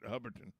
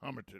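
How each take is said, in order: First: The first syllable has no m sound. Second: The first syllable has an m sound. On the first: The speaker calls it right. "excuse me, Hubberton" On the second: The speaker calls it wrong. "I always say it wrong"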